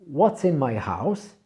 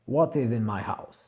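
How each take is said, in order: First: What is is contracted to one syllable. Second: What is is said as two full words. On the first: "on coupe le i et on garde simplement le s" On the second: "si on le prononce vraiment correctement"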